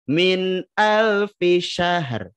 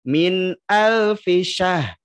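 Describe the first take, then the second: First: The final r sound is clearly pronounced. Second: The final r sound is left out. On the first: The speaker calls it right. "Harus dibaca min alfisyahar" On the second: The speaker calls it wrong. "jangan dibaca min alfisyah. Ro-nya dihilangkan"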